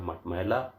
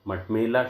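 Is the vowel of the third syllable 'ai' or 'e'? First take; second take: ai; e. First: The third syllable has an 'ai' vowel. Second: The third syllable has a plain 'e' vowel. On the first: The speaker calls it right. "शुद्ध रूप है" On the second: The speaker calls it wrong. "मटमेला शब्द का"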